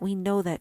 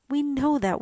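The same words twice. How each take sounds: First: Said in the usual way. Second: High, louder eager chirp. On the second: Acted. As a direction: pipe it up like a sparrow. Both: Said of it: "chirped the sparrows".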